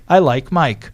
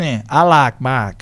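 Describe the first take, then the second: First: The vowel in like glides as a diphthong. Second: The vowel in like is one long vowel.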